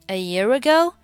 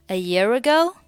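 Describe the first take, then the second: The two takes are said the same way.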